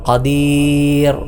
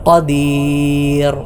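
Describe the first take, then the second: The two takes are said the same way.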